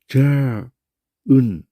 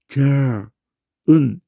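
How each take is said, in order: No difference in how they are said.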